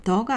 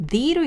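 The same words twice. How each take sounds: First: "the" with a neutral "duh" vowel. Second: "the" with an "ee" vowel; "the" as "dee". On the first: Teacher rules out "the" before vowels, pronounced "duh". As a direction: say "the" as "duh", the form being ruled out. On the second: Teacher shows "the" before vowel words, pronounced "dee". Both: Shown as a demonstration. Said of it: "the가 아니라 the로 읽습니다".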